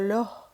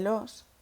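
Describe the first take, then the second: First: The final s is weakened or dropped. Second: The final s is clearly pronounced.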